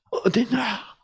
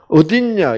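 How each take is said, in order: First: The question is said in a warm, affectionate way. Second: The question is said in a flat, dull way. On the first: The caller misses them and still loves them. The speaker calls it right. "이것이 하나님의 사랑이 느껴지도록" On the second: It is just a plain question about location. The speaker calls it wrong. "이거 얼마나 시시한 말이요"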